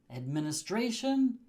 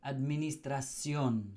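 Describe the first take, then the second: First: "Administration" with English STRAY-shun, pitched up; English pronunciation. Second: "administración" as ad-mee-nee-strah-SYON; Spanish pronunciation. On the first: Teacher sets up the English word, English "Administration" pitched higher. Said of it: "we change the shin at the end". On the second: Teacher converts it for learners, Spanish end-stressed "administración". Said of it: "and it becomes". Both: Shown as a demonstration.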